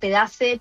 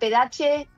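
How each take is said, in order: First: The name is pronounced the Argentine way. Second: The name is pronounced the Italian way. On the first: "los argentinos pedace" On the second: "los italianos me dicen pedace"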